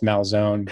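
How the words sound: The name has an American pronunciation. This is the adapted version used to fit in. "Americanized Malzone"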